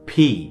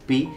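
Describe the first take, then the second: First: The p is said with a puff of air. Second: The p is said without a puff of air. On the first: The speaker calls it right. "দুই ঠোঁট মিলিয়ে ফেলেন... ভেতর থেকে একটা বাতাস বের হবে" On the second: The speaker calls it wrong. "[name] কি বললো? পি।"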